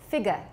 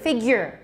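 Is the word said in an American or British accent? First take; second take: British; American. First: The word is said in a British accent. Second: The word is said in an American accent. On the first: "British? ... It's figure" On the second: "American is?"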